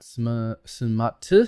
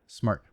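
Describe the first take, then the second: First: The word is broken into two syllables. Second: The word is said as one syllable. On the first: The speaker calls it wrong. "Not sm, smart" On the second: The speaker calls it right. "but smart"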